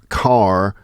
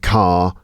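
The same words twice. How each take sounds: First: The R at the end is pronounced. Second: The R at the end is silent. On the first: "going from saying um, car" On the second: "to saying car"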